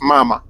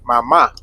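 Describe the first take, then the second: First: "mama" as MA-ma, second syllable light; stress on first syllable. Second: "mama" as ma-MA, final A stressed; stress on last syllable. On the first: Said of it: "put the accent on the first". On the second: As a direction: push the second MA of "mama". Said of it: "if you see the little accent". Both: Shown as a demonstration.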